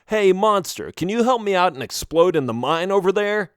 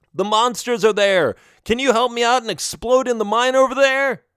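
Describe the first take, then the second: First: Higher, lightly put-on asking voice; mock request. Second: High, raised shout; calling out. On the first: Melvin imagines asking a monster for help, mock request. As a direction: pose it as an absurdly casual favor. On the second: Acted. Melvin desperately asks monsters to explode, calling out. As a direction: holler the request across a field.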